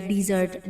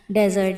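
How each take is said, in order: First: डिजर्ट with a short i, diz-ert; desert said as dizert. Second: डेजर्ट with a short open e, dez-ert; dessert said as dezert. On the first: Teacher gives the other way to say डिजर्ट. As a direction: say डिजर्ट as diz-ert, stress on the first part. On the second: Teacher shows dessert said as डेजर्ट. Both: Shown as a demonstration. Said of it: "डिजर्ट या डेजर्ट".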